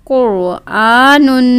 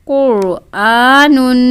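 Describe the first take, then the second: Both takes have the same delivery.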